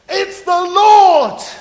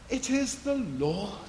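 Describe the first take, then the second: First: It is said with excited enthusiasm. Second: It is said in a solemn clerical voice.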